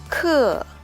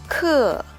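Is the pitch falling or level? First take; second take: falling; falling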